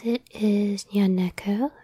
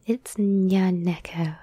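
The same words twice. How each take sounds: First: Rising, question-like lift at the end of "Nyaneko"; questioning intonation. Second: Slow, firm "Nyaneko" falling at the end; statement intonation. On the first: Real, not acted. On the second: Shown as a demonstration. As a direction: state "Nyaneko" deliberately, without a questioning lift. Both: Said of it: "say that like a question".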